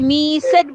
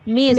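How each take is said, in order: First: The ending is an extra 'id' syllable. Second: The ending is a single t sound. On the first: The speaker calls it wrong. "এটাকে মিসেড বলি আমরা? No." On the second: The speaker calls it right. "এখানে ইডি এর উচ্চারণটা টি"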